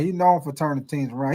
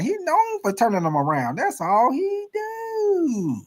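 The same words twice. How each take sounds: First: Said in the usual way. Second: Starts near normal, ends much higher and very slow; mocking critics. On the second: Host mimics how critics will talk about Carroll, mocking squeal. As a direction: stretch the last words into a mocking squeal. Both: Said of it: "that's how they gonna say about Pete Carroll".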